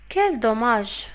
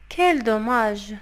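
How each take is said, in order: Both takes have the same delivery.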